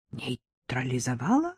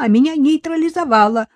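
First: «Нейтрализовала?» low, soft and flat; «Нейтрализовала?» echoed in a dead, wooden voice; husband coldly repeats her word. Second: «нейтрализовала» loud and high, punched; «нейтрализовала» flung out high and loud; the wife's indignant «нейтрализовала»; heated protest. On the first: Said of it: "деревянным тоном осведомился муж". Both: A narrator's reading.

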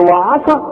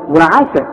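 First: وعسى with dark, thick wa and 'a; mistaken heavy vowels. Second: وعسى with thin, fronted a vowels; light ayn. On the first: Retold or imitated. Teacher asking mockingly if one says it so, heavy وعسى. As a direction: thicken the opening of وعسى, pitched as a question. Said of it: "ما تقولش وعا". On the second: Shown as a demonstration. Teacher correcting after saying no, light وعسى. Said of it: "لا".

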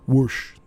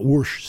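First: "Whoosh" again in the Jersey way, with an r sound; Jersey-style "Whoosh", as he used to say it; Jersey accent. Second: "Whoosh" said with a Jersey r, like "wursh"; "Whoosh" in a thick New Jersey vowel; old Jersey pronunciation of "Whoosh"; Jersey accent. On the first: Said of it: "That's how I used to pronounce it". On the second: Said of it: "there I go with that Jersey". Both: Shown as a demonstration.

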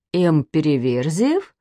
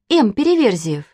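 First: Slow, rising question on Переверзиев; puzzled echo question. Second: Said in the usual way. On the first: A narrator's reading. Papa repeats a name he doesn't know, puzzled question. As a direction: draw out Переверзиев and lift it at the end, puzzled.

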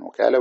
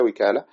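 First: وكالة with an "a" after the waw, "wakala"; fatha on waw. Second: وكالة with an "i" after the waw, "wikala"; kasra on waw. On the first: Teacher showing students the first variant, وكالة said "wakala". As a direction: open the first vowel of وكالة to "wa". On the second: Teacher showing students the second variant, وكالة said "wikala". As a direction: narrow the first vowel of وكالة to "wi". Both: Shown as a demonstration. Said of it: "بفتح الواو وكسرها لغتان".

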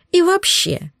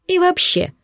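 First: High, huffy outburst; indignant countess. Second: High, sniffy interjection; a pompous countess winding up; haughty countess. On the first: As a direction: bristle like a snob. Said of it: "возмутилась тупица". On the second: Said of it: "не унималась тупоголовая". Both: A narrator's reading.

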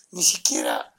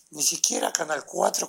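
First: Low breathy whisper on ni siquiera; whispered aside. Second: Said in the usual way. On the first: Real, not acted. Bitter aside about the sick child, whispered.

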